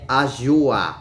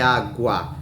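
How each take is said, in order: First: The middle consonant is a soft j sound. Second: The middle consonant is a hard g sound. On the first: The speaker calls it wrong. "senão seria ajua" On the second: The speaker calls it right. "Então é água"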